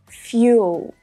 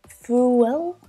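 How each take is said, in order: First: It is said with a y sound before the vowel. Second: It is said with no y sound before the vowel. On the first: The speaker calls it right. "the correct pronunciation is fuel" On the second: The speaker calls it wrong. "you might sort of think it would be something like fool"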